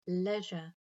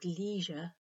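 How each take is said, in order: First: The first vowel sounds like the e in leg. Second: The first vowel sounds like the ee in see. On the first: "the EI sounds like the E in leg in British English" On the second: "the E in C in American English"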